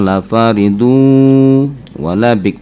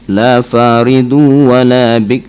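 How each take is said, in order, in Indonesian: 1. Bunyi sengau itu ditahan dengan dengung panjang. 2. Bunyi sengau itu dipotong pendek, hanya digandakan. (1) "seharusnya la faridu wala bik bi gunnah" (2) "gunnahnya ya hanya sekedar tasdid aja"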